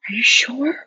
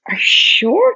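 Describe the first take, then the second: First: Whispery, high, rising disbelief; retold stunned question. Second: High, voiced, rising question; retold disbelief. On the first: To Diana about Germany news, stunned whisper. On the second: To Diana about the match, high disbelief. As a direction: press the question with pitch shooting up.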